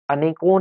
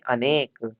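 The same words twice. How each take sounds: First: अनेकों with an added "on" ending; wrong plural demonstrated. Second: अनेक stopping on the k; correct form. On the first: Teacher showing students the wrong plural, stretched अनेकों. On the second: Teacher correcting students' plural, falling, careful अनेक. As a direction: end अनेक on k, no vowel after. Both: Shown as a demonstration. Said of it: "अनेकों नहीं".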